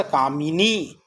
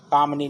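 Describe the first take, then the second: First: कामिनी with a short i after m; correct form said. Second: कामनी with no vowel between m and n; wrong form said. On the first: Teacher giving the right form कामिनी. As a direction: give the mi in कामिनी its own beat. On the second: Teacher naming the wrong form कामनी. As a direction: clip it to काम-नी. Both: Shown as a demonstration. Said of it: "कामनी नहीं होता".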